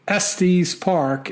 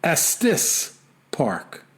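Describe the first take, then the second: First: Estes said ESS-teez; mistaken pronunciation. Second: Estes said ESS-tiss, slowly set apart; corrected pronunciation. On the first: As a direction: end Estes on a long 'eez'. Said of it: "is pronounced". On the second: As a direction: end Estes on a short 'iss'. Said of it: "Estes Park is pronounced". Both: Shown as a demonstration.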